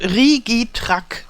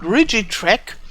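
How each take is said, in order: First: The name is pronounced in a German way. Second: The name is pronounced in an English way. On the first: "the correct pronunciation if you pronounce it in the German way" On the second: "I think you would call it Rigitrack"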